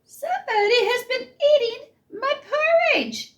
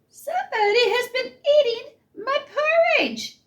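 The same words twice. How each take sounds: First: It is said in a middle-sized voice. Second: The same.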